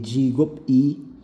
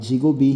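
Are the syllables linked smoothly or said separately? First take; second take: separated; linked. First: The syllables are said separately, not joined. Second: The syllables are joined smoothly together. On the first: The speaker calls it wrong. "hindi jigop-i" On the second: The speaker calls it right. "ang basa dyan ay jigobi"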